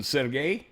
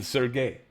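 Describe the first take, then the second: First: Sergey with an open "sair" first syllable; Sergey opening on a clear "eh" vowel; first Sergey pronunciation. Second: Sergey with a "sur" first syllable; Sergey opening on a murmured "er" vowel; second Sergey pronunciation. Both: Shown as a demonstration. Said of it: "I don't know what the difference is between".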